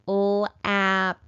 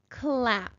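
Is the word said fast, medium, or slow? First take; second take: slow; fast. First: The word is sounded out slowly. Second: The word is said quickly as one unit. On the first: "Let's sound it out together" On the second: "And again, a little faster"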